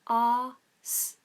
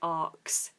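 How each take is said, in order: First: The word ends with an 'sk' sound. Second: The word ends with a 'ks' sound. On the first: The speaker calls it right. "the correct pronunciation for the word ask is exactly how it's written" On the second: The speaker calls it wrong. "some people pronounce this arxed or arcs. I arcs, which is incorrect"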